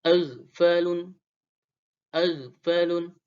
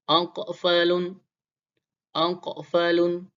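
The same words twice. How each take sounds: First: Aghfalun slow, gh smooth, no bounce; unbounced ghain. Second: Aqfalun slow, the q bounced; qalqalah q. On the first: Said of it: "huruf ghain". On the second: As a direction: aqfalun with the q echoing. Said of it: "huruf qaf berharokat sukun". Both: Shown as a demonstration.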